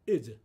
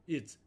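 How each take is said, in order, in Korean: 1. 마지막 자음 뒤에 모음이 하나 더 붙습니다. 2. 마지막 자음에서 깔끔하게 끝납니다. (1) "이렇게 의 발음을 넣어서 발음하는 것이 아니라" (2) "이렇게 해서 자음 자체로 끝내는 발음입니다"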